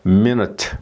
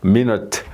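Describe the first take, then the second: No difference in how they are said.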